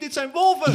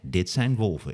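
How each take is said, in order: First: It is said in panic, urgent and alarmed. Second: It is said calmly, like pointing something out. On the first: The animals are a danger and one must flee. The speaker calls it right. "In het echt is het van... Fucking hell, rennen Miep" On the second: The animals are harmless to look at. The speaker calls it wrong. "In het echte leven is het niet van"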